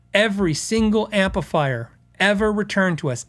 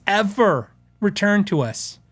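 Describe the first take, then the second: First: Said in the usual way. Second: "ever returned to us" said slowly, each word leaned on; slow emphatic repeat. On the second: Shown as a demonstration. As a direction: drag out "ever returned to us" to hammer the point.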